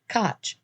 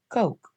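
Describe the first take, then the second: First: The name is said to rhyme with 'botch'. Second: The name is said to rhyme with 'poke'. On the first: A false name borrowed from a famous figure. "he made sure to pronounce it like Koch, as in the mayor of New York" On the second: The man's real family name. "his name was actually pronounced Coke"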